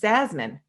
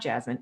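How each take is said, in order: First: The name begins with a Z sound. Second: The name begins with a J sound. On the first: The speaker calls it right. "it's Zasmine" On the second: The speaker calls it wrong. "It's not Jasmine"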